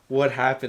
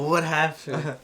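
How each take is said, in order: First: It is said stiffly, without expression. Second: It is said expressively, like a real reaction.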